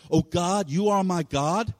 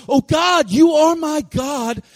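First: Said in the usual way. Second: High, loud, drawn-out shout of faith; impassioned prayer shouted slowly and high; crying out to God. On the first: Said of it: "he's crying out in the context of relationship". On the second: Retold or imitated. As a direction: cry out to heaven at full voice. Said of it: "David's crying out like this".

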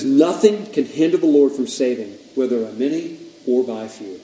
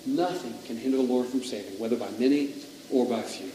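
First: Loud, ringing scripture reading; emphatic declaration. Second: Softer, reflective repeat of scripture; hushed reflection. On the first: Preacher reading the verse to the room, emphatic. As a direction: proclaim the verse, easing off at the end. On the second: Preacher dwelling on how true the verse is, hushed. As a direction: let the verse sink in quietly. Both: Real, not acted.

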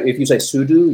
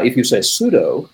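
First: "sudo" said SOO-doo, ending like do; second syllable of "sudo" rhymes with do. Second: "sudo" said SOO-doh, like pseudo; second syllable of "sudo" rhymes with go. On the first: Guest explaining super user do, SOO-doo for "sudo". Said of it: "saying it because it's super user do". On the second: Guest explaining the pun, SOO-doh for "sudo". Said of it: "like the thing that it's a pun on". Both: Shown as a demonstration.

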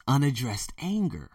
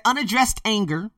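First: Said in the usual way. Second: Unaddressed anger raised high and louder, leaning on Unaddressed; stressed quote opening. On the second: Shown as a demonstration. Reading Lewis Howes' quote to viewers, Unaddressed anger stressed high.

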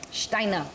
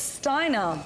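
First: "Steiner" said with a German sh at the start; German pronunciation. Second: Said in the usual way. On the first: Retold or imitated. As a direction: say "Steiner" as "Shtyner". Repeats name with German sh.

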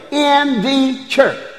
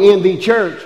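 First: In the church stretched slow and high; savoured phrase. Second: Said in the usual way. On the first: Real, not acted. Preacher repeating a favourite scripture phrase. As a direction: draw out In, high and lingering. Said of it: "I love that". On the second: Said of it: "is a prepositional phrase".

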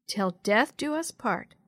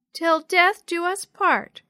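First: Said in the usual way. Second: Put-on high, loud, slow child voice; reluctant little sister. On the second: A narrator's reading. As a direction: drag the vow out like a small child. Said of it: "Yo-Yo muttered, not liking the sound".

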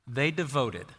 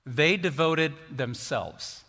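First: Said in the usual way. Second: "They devoted themselves" drawn out very slowly; slow down and weigh each word; slow emphasis. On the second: Shown as a demonstration. Preacher dwelling on "devoted", very slow emphasis. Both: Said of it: "as important as the first two words".

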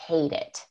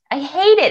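First: Softer, low "hate it"; quiet. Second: "I hate it" higher, with "hate" stressed; emphatic. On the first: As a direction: say "hate it" under the breath. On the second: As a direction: punch "hate" in "I hate it". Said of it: "And I hate it". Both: Shown as a demonstration.

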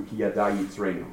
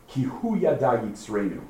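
First: Said in the usual way. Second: "hu" stressed, falling tune; emphatic hu. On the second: Shown as a demonstration. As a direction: lean on "hu" before "yada yitzreinu". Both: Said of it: "as opposed to".

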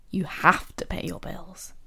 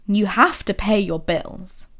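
First: Whispered. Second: Reluctant obligation. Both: Shown as a demonstration. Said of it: "The tone is, oh God, it's so different".

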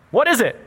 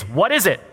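First: Higher, puzzled "What is it?"; puzzled question. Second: Said in the usual way. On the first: Retold or imitated. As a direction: ask "What is it?" like staring at something strange. Echoing the puzzled Israelites. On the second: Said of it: "is what the word manna is".

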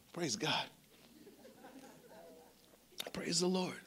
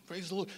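First: Hushed whisper of praise. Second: Said in the usual way. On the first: Real, not acted. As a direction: breathe it out in a whisper. Quiet praise after a story.

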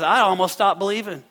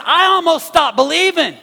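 First: Said in the usual way. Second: "I almost stopped believing" cried out loud and high; loud preached cry. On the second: Retold or imitated. Pastor crying out David's words to the congregation, loud and high.

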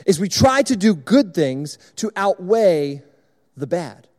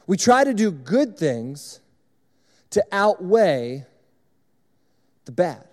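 First: Said in the usual way. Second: Slow, stressing each word of We try to do good things to outweigh the bad; slow and weighty, each phrase set apart by pauses; slow emphatic repeat. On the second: Shown as a demonstration. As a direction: drive the point home slowly. Repeating key sermon point, slowed.

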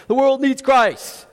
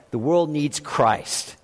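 First: Higher, ringing declaration; proclaimed with conviction. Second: Soft, slow, throwaway line; offhand cliche. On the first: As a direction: announce it as a bold truth. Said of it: "You should say things like". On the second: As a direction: say it like a tired stock phrase. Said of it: "when I say things like". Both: Shown as a demonstration.

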